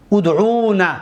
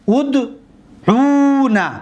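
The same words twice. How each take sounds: First: Said in the usual way. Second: ادعونا drawn out slowly and high, final نا held; slow model form. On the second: Shown as a demonstration. Teacher to students modelling ادعونا, drawn out. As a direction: stretch ادعونا syllable by syllable.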